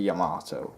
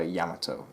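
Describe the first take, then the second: First: Yamato as 'yah-MAAH-toe', long middle vowel; dispreferred pronunciation. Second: Yamato as 'YAM-uh-toe', short first vowel; preferred pronunciation. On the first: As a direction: stress and stretch the middle of Yamato. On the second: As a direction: stress the start of Yamato, short middle. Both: Shown as a demonstration. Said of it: "that's what I prefer".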